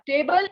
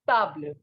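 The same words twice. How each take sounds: First: The word is said with English pronunciation. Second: The word is said with French pronunciation. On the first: "same as in English, spelling wise, but not pronunciation wise" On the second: "which is known as table"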